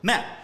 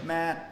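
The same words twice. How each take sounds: First: The pitch dips down and back up. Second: The pitch stays level and flat. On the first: "four is mat" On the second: "So that's one"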